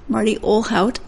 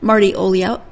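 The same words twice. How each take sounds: First: The 'lh' is a plain English 'l' sound. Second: The 'lh' sounds like a Portuguese 'ly' sound. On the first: The speaker calls it right. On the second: The speaker calls it wrong.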